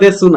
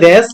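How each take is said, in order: First: The final vowel is clearly pronounced. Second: The final vowel is dropped entirely. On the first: The speaker calls it wrong. "এগুলা দেসু না" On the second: The speaker calls it right. "কিন্তু উচ্চারণ হবে দেশ মাস"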